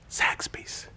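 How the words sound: The word is whispered.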